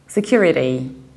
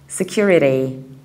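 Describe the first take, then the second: First: It has an American accent with a flapped T. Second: The same.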